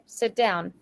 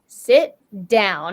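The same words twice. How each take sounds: First: It is said in a neutral, ordinary tone. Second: It is said in a harsh, commanding tone.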